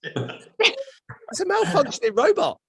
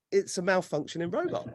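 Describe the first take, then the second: First: Very high, drawn-out exclamation; slow, high-pitched comic outcry; incredulous squeal. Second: Said in the usual way. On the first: Retold or imitated. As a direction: squeal the punchline in mock disbelief. Acted disbelieving punchline about the cashier.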